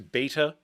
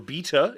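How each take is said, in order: First: It is said with an American pronunciation. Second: It is said with a British pronunciation.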